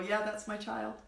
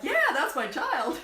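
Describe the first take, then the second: First: It is said flatly, without much pitch movement. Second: It is said with lively, varied pitch.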